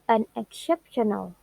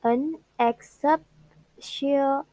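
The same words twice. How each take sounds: First: Said in the usual way. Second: Unexceptional slowly split as un, ex, cep, tio, nal; broken into syllables. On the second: Shown as a demonstration. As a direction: say Unexceptional syllable by syllable with gaps, higher pitched. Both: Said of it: "the word has five syllables".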